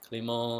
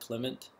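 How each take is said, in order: First: The name is said with a French pronunciation. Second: The name is said with an English pronunciation. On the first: The speaker calls it right. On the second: The speaker calls it wrong.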